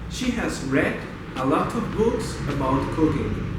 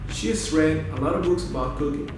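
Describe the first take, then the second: First: Each word is fully pronounced and kept separate. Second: Words are linked, with reduced unstressed syllables. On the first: The speaker calls it wrong. "without connected speech" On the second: The speaker calls it right. "with connected speech"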